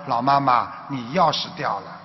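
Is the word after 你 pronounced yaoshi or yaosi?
yaoshi. It has standard Mandarin with a retroflex shi sound. Your keys have fallen. The speaker calls it right. "他就挤上来想跟老妈妈说"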